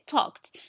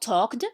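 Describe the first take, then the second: First: The ending is pronounced as a t sound. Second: The ending is not pronounced as a t sound. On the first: The speaker calls it right. "We say talked" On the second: The speaker calls it wrong. "not talked"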